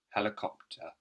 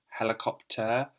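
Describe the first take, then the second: First: It ends with a short, weak 'uh' sound. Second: It ends with a strong, clear 'er' sound. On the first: "It's just a shorter sound" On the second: "We could say"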